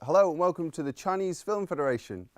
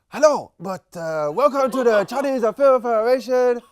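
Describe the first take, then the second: First: It is said in his normal accent. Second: It is said in a put-on Chinese accent.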